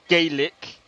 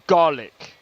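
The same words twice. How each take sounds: First: The word is given its Irish pronunciation. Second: The word is given its Scottish pronunciation. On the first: "So Irish Gaelic is actually Gaelic" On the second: "Then you got Scottish Gaelic, and it's called Gaelic"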